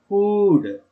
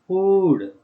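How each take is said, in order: The two takes are said the same way.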